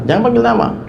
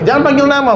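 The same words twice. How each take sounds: First: Said in the usual way. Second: "panggil" pushed high and hard, whole line raised; emphatic, higher. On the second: Shown as a demonstration. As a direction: insist on it, pitch leaping up. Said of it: "Bener, Pak".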